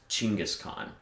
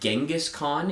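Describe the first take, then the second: First: The name begins with a ch sound. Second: The name begins with a hard G sound. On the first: The speaker calls it right. "It's pronounced oh. Chinggis Khan because the that hard G does not appear" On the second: The speaker calls it wrong. "Genghis Khan is a mispronunciation"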